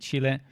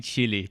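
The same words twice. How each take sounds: First: The name is said in the Spanish way. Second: The name is said in a non-Spanish way. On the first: This is how the name is said in Spanish. "I guess in Spanish you say Chile" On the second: This is how the name is said in another country. "in my country, we say Chile. That's how we pronounce the name"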